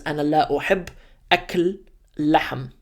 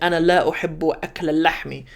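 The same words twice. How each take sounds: First: The words end without case-ending vowels. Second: The words end with case-ending vowels. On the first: The speaker calls it wrong. "It just says" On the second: The speaker calls it right. "it should read"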